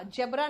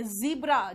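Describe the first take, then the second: First: "जेब्रा" with a j and short e; quick wrong-example "जेब्रा", j for z; mispronounced zebra. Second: "ज़ीब्रा" with buzzed z and long ee; teacher's emphatic "ज़ीब्रा", z held; correct zebra pronunciation. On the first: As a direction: say "जेब्रा" as JEB-ra. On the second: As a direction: say "ज़ीब्रा" as ZEE-bra, loud and clear. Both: Shown as a demonstration. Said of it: "जेब्रा नहीं होता ये".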